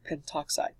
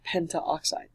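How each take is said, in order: First: The 'a' before 'oxide' is dropped. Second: The 'a' before 'oxide' is pronounced. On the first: The speaker calls it right. "we drop the A as well, so it becomes pentoxide" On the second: The speaker calls it wrong. "Not pentaoxide"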